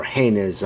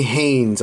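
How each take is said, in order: First: "Haynes" split into two syllables, HAY-niz; two-syllable pronunciation. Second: "Haynes" said as one syllable; one-syllable pronunciation. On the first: Naming the company the other way, "Haynes" as HAY-niz. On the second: Naming the company the first way, "Haynes" as one syllable. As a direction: say "Haynes" to rhyme with "rains". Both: Shown as a demonstration. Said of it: "however you wanna pronounce it".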